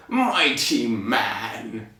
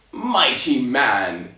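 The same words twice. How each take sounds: First: Very slow, lower giant voice; giant's new voice. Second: Slow, drawn-out giant address; first try at the giant's accent, stretched out. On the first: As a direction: stretch it right out as a ponderous giant. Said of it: "but this is his voice now". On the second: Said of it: "in the original accent of which". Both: Acted.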